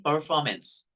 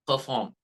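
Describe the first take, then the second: First: American "performance", slowly, r sounded; American accent. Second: British "perform" with the r dropped, no r; British accent. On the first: Teacher demonstrates American r in "performance". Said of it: "This is American pronunciation". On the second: Teacher demonstrates British "perform" for students. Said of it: "they pronounce ... like perform". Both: Shown as a demonstration.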